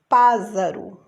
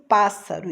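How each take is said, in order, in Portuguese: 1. A consoante do meio é um z sonoro, de zumbido. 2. A consoante do meio é um s sibilante, de chiado. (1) "um S só, eu vou ler pássaro" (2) "eu conheço pássaro"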